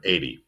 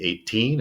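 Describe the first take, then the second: First: "eighty" as EIGH-dee, short weak ending; stress on first syllable. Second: Put-on "eighteen" with a long, stressed TEEN. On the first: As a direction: hit EIGH in "eighty", let "ty" fade. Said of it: "Stress the first syllable". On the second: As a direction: draw out the second syllable of "eighteen". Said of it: "how to tell the difference between". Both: Shown as a demonstration.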